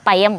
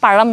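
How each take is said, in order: First: The middle consonant is a plain y sound. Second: The middle consonant is the retroflex zh sound. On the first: A small child says it the baby way. "അവൾ പയം എന്ന് പറയും" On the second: A child says it the adult way. "ഞാൻ പഴം എന്ന് പറയും"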